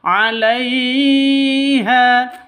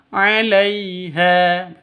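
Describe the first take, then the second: First: The lai syllable is jerked and drawn out. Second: The lai syllable is smooth and soft. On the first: The speaker calls it wrong. "'Alaiha itu salah" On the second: The speaker calls it right. "Yang betul"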